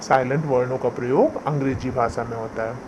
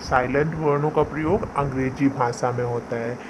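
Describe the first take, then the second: The two takes are said the same way.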